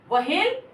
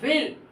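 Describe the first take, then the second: First: The h is sounded as its own syllable. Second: No separate h syllable is sounded. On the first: The speaker calls it wrong. "ये आपका वहेल नहीं पढ़ाएगा" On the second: The speaker calls it right. "ये पढ़ाएगा वेल मछली"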